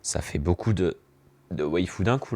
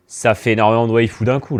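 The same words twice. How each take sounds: First: Said in the usual way. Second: Loud, excited exclamation; louder emphatic repeat. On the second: Real, not acted.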